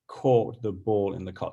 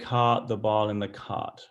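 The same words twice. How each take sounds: First: It is spoken in a non-American accent. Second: It is spoken in an imitated American accent. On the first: "I say" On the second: "I'm not good at American accents, so just bear with me. ... you kind of say"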